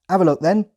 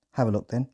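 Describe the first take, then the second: First: High, loud Hampshire farmer voice; loud rural Hampshire accent. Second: Said in the usual way. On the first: Retold or imitated. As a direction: bark it like a Hampshire farmhand. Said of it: "in a thick Hampshire accent". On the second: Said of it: "translated into British Standard English".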